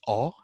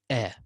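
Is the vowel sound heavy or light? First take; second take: heavy; light. First: The vowel is heavy and thick. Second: The vowel is light and thin. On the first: "So a sometimes can be magnified, so it's like this" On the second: "and sometimes can be simplified. It's like this"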